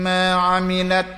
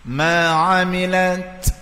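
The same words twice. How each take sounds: First: The final t ends without any breath. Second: The final t ends with a slight breath. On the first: The speaker calls it wrong. "jangan baca" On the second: The speaker calls it right. "Ada tak bunyi sikit eh. Itu dipanggil hams"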